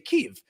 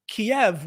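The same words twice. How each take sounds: First: The name is said in the Ukrainian way. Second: The name is said in the Russian way. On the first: The speaker calls it right. "The Ukrainians say Kiev" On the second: The speaker calls it wrong. "that is the Russian pronunciation"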